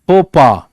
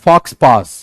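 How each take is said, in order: First: The x and s sounds are silent. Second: The x and s sounds are pronounced. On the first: The speaker calls it right. "The pronunciation is faux pas" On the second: The speaker calls it wrong. "It's not fox pass"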